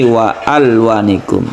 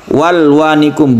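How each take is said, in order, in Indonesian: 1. Bunyi 'a' pada 'al' dibaca terpisah. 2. Bunyi 'a' menyatu, langsung menuju 'l'. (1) "tidak langsung sukun lam"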